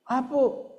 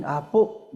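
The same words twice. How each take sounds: First: Higher calling voice of a grandchild; lightly voiced grandchild calling Apo. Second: Said in the usual way. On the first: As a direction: call out Apo like a little grandkid. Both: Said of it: "kasi tawag na sa akin".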